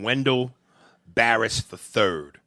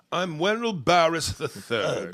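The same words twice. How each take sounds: First: Said in the usual way. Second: Mock regal. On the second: Comedian mocking a numbered name, mock regal. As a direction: announce yourself like pretend royalty.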